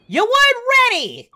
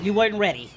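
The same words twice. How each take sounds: First: High, loud gloating yell; loud, pitched-up taunt; shouted taunt. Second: Said in the usual way. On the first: Pretend. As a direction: crow it at the beaten fighter. Same words repeated as a taunt.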